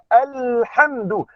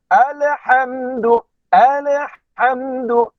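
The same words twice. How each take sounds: First: Alhamdu slow, the l held clean with no bounce; smooth correct l. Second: Alhamdu slow, with the l bounced like ale; wrong qalqalah l. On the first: Teacher models smooth correct recitation. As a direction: read Alhamdu smoothly, no echo. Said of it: "bacaan licin saja". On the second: Teacher models the common mistake slowly. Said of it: "Maka itu adalah kesilapan". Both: Shown as a demonstration.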